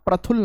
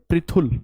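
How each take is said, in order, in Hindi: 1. पहला अक्षर 'pra' की तरह बोला जाता है। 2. पहला अक्षर एक तेज़ 'pri' है। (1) "इसे आप प्रथुल ना पढ़ें।" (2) "इसका उच्चारण होगा प्री। थोड़ा जल्दी पढ़ेंगे इसे"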